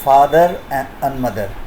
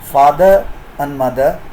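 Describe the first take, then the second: First: An r sound links father to and. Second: Father ends without an r sound before and. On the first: The speaker calls it right. "it is father and mother" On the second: The speaker calls it wrong. "So it is not father and mother"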